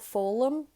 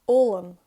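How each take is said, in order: First: The word begins with an F sound. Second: The word begins directly with a vowel. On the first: The word is in its basic form. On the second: The word is in its changed form.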